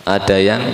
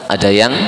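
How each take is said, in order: The two takes are said the same way.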